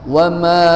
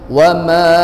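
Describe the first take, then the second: The two takes are said the same way.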